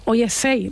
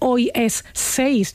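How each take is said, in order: First: Final consonants are dropped, Andalusian style. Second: Final consonants are fully pronounced, standard style.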